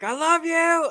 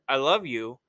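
First: It is said in a raised, loud voice. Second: It is said in a normal, quiet voice.

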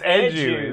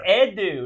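First: The d is followed by a 'j' sound. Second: The d is followed directly by the vowel. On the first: The speaker calls it wrong. "not Edu. ... There's no G in there" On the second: The speaker calls it right. "it's Edu"

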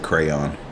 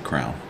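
First: The word is said with two syllables. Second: The word is squeezed into one syllable. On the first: "they don't say crayon" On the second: "They say crown"

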